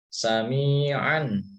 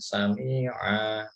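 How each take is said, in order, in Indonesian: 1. Kata ini berakhir dengan bunyi 'an'. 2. Kata ini berakhir dengan vokal 'a' panjang. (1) "tapi kalau dilanjut sami'an alima" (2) "kalau di wakaf jadinya sami'a"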